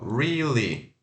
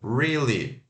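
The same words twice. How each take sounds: Both takes have the same delivery.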